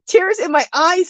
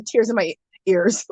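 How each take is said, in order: First: Higher pitch, landing firmly on "eyes"; emphatic "eyes", fixing the wrong word; corrective stress on eyes. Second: Said in the usual way. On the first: Real, not acted. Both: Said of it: "What am I saying?".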